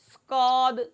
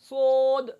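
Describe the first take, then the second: First: A k-like sound comes after the s. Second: The lips are rounded, giving an o sound. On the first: "लफ्ज़ सौद में कौफ की आवाज़ पाई जाएगी" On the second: "पढ़ते वक़्त होंठों को गोल कर देना"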